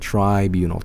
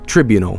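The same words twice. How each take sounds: First: The first syllable sounds like 'try'. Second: The first syllable does not sound like 'try'. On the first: The speaker calls it right. "try. Think of triangle" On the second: The speaker calls it wrong. "in Swedish we said it as tribunal"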